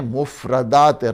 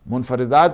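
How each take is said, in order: First: No n sound follows the first syllable. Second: An n sound follows the first syllable. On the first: The speaker calls it right. "मुफरदात रागिब" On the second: The speaker calls it wrong. "मुनफरदात नहीं है"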